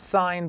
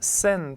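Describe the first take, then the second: First: The vowel rhymes with 'line'. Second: The vowel rhymes with 'pin'. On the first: The speaker calls it right. "this is pronounced sine" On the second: The speaker calls it wrong. "it's not sin theta"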